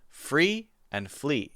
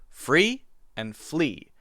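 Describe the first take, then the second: Both takes have the same delivery.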